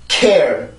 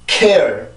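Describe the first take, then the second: No difference in how they are said.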